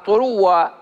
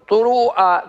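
First: The w sound is doubled, with no glottal stop. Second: A glottal stop follows the w sound. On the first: "تبدل الهمزة واوا وتدغمها" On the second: "تأتي بالهمزة بعد الواو"

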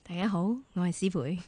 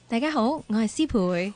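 First: The voice is deep and heavily nasal. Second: The voice is deep and only lightly nasal. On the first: "再戳啲啊？ 鼻音要重啲" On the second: "可唔可以用你自己戳到靓嘅声？"

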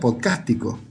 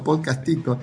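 First: The stress falls on the syllable cas. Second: The stress falls on the syllable ti. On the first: This is how the name looked when read. The speaker calls it wrong. "yo lo veía con tilde, y para mí era Podcastico" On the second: This is how the name's owner says it. The speaker calls it right. "hasta que te escuché a vos decirlo Podcastico"

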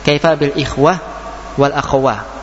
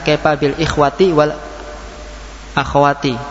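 First: The word endings are pronounced with a final h. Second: The word endings are pronounced with a full ti. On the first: This is the form used when pausing. "taknya dibaca ha" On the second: This is the original full form.

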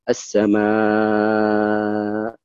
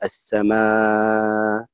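First: The final long vowel is held very long. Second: The final long vowel is held moderately long. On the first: "ولك الطول" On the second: "يعني لك التوسط"

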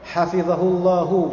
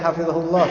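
First: The word ends with a pronounced final vowel. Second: The word ends without the final vowel. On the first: The speaker calls it wrong. "ditulisnya hu gitu, itu enggak layak" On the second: The speaker calls it right. "Jadi layaknya hafizahullah, selesai"

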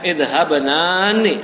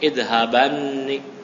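First: The two n sounds are separated by a vowel. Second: The two n sounds merge into one doubled n. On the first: This is the underlying original form. The speaker calls it wrong. "aslinya idhabanani" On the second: This is the form actually used. The speaker calls it right.

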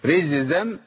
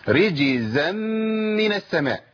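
First: The middle consonant is turned into a 'z' sound. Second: The middle consonant is a clear 'j' sound. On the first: The speaker calls it wrong. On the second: The speaker calls it right.

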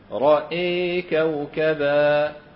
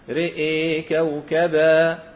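First: Only the hamza vowel leans fully toward e. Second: Both the r and hamza vowels lean fully toward e. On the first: "عندنا إمالة فقط في الهمزة" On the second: "هذه الهمزة تمال مع ألفها وقبلها كذلك الراء"

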